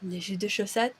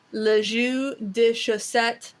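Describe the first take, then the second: First: Softer, lower le jus de chaussette in French; French phrase. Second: Slow careful French, lɪ ʒy də ʃosɛt; French phrase. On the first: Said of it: "my favorite of the French phrases". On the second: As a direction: say le jus de chaussette slowly in French. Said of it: "the French phrase". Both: Shown as a demonstration.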